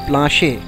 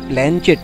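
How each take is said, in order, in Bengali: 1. এটি plahnsheh বলা হয়, অনুনাসিক স্বর, শেষে কোনো t নেই। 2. এটি planchet বলা হয়, শেষে t ধ্বনি আছে। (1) "উচ্চারণ হচ্ছে প্লাঁশে" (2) "কথাটা প্ল্যানচেট নয়"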